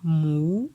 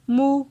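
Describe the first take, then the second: First: The syllable has a rising tone. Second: The syllable has a high tone. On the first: "Pour le ton montant" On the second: "Ton haut"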